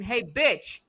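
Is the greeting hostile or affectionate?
hostile. It sounds hostile and insulting.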